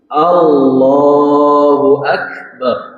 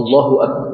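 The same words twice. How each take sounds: First: The vowel after the double l is held long. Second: The vowel after the double l is cut short. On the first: The speaker calls it right. "A-nya dibaca di mulut terbuka dan tidak panjang" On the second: The speaker calls it wrong. "Kalau disingkat, tidak pakai mad pada lafaz dalamnya itu, maka salah takbir"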